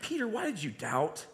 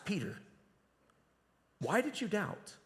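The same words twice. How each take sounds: First: Reproachful, pointed doubt question; a sharp why, let down by him; the tone Jesus perhaps did not use, annoyed. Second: Soft, caring why; Jesus gently asking Peter, caring; gentle inviting question. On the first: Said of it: "the tone was not". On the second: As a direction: ask it tenderly, inviting reflection. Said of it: "the tone was perhaps". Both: Shown as a demonstration.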